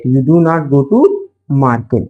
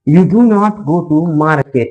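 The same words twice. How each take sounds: First: Said in the usual way. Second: Slow dictation. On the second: Shown as a demonstration. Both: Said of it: "market.".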